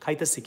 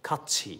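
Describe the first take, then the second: First: It is said in a colloquial regional form. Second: It is said in the standard form. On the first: Casual speech among friends. The speaker calls it wrong. "এইভাবে অশিক্ষিতর মতো আপনি বাংলা বলেন" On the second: Proper speech for formal settings. The speaker calls it right. "You should say"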